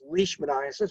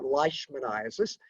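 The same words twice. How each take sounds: First: The first syllable has an 'ee' vowel. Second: The first syllable has an 'eye' vowel. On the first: The speaker calls it right. "L E I in Scottish, you pronounce the E first" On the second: The speaker calls it wrong. "If this were German, you pronounce the I first"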